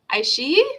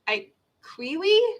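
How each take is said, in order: First: The middle of the name has an 'sh' sound. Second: The middle of the name has a 'kw' sound. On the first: The speaker calls it right. "Is that how it's supposed to be pronounced?" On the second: The speaker calls it wrong. "Because it's a Q. So I was thinking"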